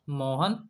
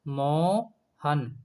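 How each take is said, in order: First: The word is said at normal length. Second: The word is drawn out and prolonged. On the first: "इसका उच्चारण करेंगे तो उच्चारण होगा Mohan" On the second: "इस मोहन में अधिक समय लगा"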